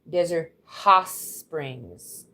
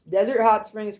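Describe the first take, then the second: First: The T in 'Hot' is dropped. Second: The T in 'Hot' is clearly pronounced. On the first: The speaker calls it right. "You don't pronounce the T" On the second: The speaker calls it wrong. "I just said it wrong"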